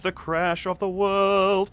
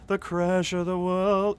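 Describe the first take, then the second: First: The consonants are clearly and fully pronounced. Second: The consonants fade away and are barely sounded. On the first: "I know that sounded a bit more legit" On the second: "It's almost un- un- unenunciated, like it's lazy"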